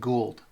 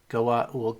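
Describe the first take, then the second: First: The name is run together into one syllable. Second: The name has a break between its parts. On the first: "other people will just pronounce it Gould" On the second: "some people will pronounce it Goa Uld, Goa Uld, Goa hyphen Uld"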